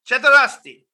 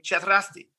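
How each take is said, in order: First: It is said angrily, almost yelled. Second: It is said calmly, as a plain greeting.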